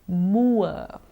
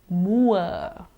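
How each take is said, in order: No difference in how they are said.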